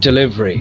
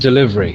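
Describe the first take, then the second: The two takes are said the same way.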